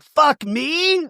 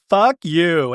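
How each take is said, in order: First: Very high incredulous question; mock indignant echo. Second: Said in the usual way. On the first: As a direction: throw it back in hammed-up disbelief.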